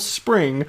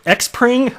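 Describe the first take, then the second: First: The X is silent, sounding like spring. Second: The X is said aloud as a letter name. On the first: The speaker calls it right. "here you go" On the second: The speaker calls it wrong. "What is this X Pring?"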